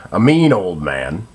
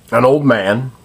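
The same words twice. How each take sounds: First: Mean lifted and leaned on as a correction; stress on mean. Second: Said in the usual way. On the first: Real, not acted. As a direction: correct yourself, hit mean.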